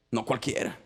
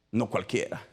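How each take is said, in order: Both takes have the same delivery.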